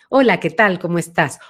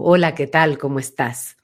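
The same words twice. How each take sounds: First: The voice has a medium, central resonance. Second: The voice has a deep, back resonance.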